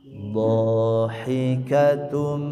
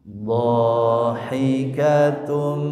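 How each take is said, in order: No difference in how they are said.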